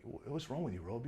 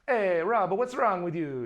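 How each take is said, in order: First: Attempted South African accent. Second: Loud, high, hammed-up South African; attempted South African accent. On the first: Imitating the colorist asking after him, shaky South African accent. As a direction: try a hesitant South African accent, quietly. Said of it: "Is that a South African accent?". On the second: Imitating the colorist calling to Rob, loud South African accent. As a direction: call it out in a broad mock South African accent. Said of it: "he's a South African guy".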